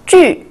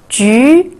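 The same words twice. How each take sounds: First: The pitch falls sharply from high. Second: The pitch rises from mid to high.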